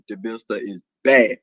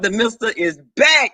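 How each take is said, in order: First: Very low deep register. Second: Said in the usual way. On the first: Acted. Announcing to viewers the mister is back, deep voice. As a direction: repeat it from way down low. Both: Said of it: "when this boys leave me".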